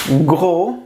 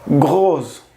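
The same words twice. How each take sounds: First: Gros with a silent s, ending on the o; French masculine Gros. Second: Gros with a clear final s sound; French feminine grosse. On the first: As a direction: Gros as gro, rising. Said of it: "es el masculino". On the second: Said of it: "es el femenino". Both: Shown as a demonstration.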